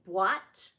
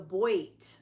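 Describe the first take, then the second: First: The word starts with a 'bwah' sound. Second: The word starts with a 'boy' sound. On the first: The speaker calls it right. "in French it don't we say boîte?" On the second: The speaker calls it wrong. "which people call the boit"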